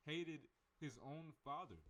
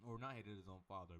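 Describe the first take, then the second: First: Hated said higher and slowed; hated drawn out high and heavy; stress on hated. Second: Not hit as the correction; correcting himself with weight on not; stress on not. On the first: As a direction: lean on the word hated, slowly. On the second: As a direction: punch not, then hated his own father plain. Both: Shown as a demonstration.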